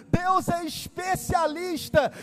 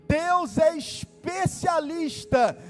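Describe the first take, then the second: Both takes have the same delivery.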